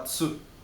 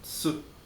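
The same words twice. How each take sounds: No difference in how they are said.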